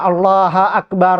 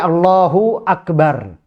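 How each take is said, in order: First: Allah runs straight into Akbar without a vowel. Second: A u vowel separates Allah and Akbar. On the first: The speaker calls it wrong. "Juga tidak boleh kita membaca Allah Akbar" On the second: The speaker calls it right. "Tapi Allahu Akbar"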